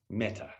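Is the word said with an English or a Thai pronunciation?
English. It is said with a plain English pronunciation.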